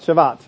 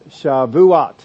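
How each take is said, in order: First: The word is said with two syllables. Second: The word is said with three syllables. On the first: The speaker calls it wrong. "Not Shavat" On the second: The speaker calls it right. "The pronunciation is the three-syllable Shavuot"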